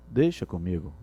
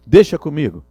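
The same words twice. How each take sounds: First: Softer, lower "deixa comigo". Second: Louder, firm "Deixa comigo"; loud and sure. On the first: Teacher contrasting a soft, low "deixa comigo". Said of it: "A forma". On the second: Teacher showing a loud, sure "Deixa comigo". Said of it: "não é só falar assim". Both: Shown as a demonstration.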